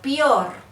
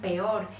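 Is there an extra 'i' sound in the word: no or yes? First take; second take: yes; no. First: The word is said with an added i sound. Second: The word is said plainly, with no added i sound. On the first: This is the regional Tolimense or Opita form. "Se destaca mucho por incluir la I en las palabras" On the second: This is the standard form, not the regional one. "ellos no dicen"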